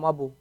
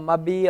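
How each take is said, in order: First: A u vowel follows the b. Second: An i vowel follows the b. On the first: "You can't say" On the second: "You can't say"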